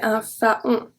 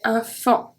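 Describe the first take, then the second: First: The vowels are said as two separate sounds. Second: The vowels merge into one nasal sound. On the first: The speaker calls it wrong. "So I don't say un faon" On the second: The speaker calls it right. "I say un fan"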